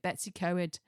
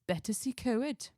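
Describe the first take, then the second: First: The name is said with an anglicised first part. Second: The name is said with a Welsh twang. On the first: The speaker calls it wrong. "told me off for pronouncing it" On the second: The speaker calls it right. "I've got the Welsh twang at the end"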